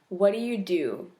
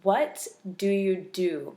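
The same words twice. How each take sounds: First: It is said fast. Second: It is said slowly.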